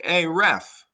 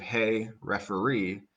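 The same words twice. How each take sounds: First: Loud, high shout of "Hey, ref!"; yelled at the ref. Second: Said in the usual way. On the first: Retold or imitated. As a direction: call out to the referee from the stands. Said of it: "they're yelling". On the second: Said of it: "instead of".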